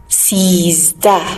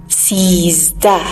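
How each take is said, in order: No difference in how they are said.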